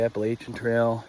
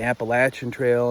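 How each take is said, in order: First: Appalachian is said with a Northern regional pronunciation. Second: Appalachian is said with a Southern regional pronunciation. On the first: This is how people further north say it. "instead of" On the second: This is how people in the South say it. "everybody's got like a southern twang. They start calling it"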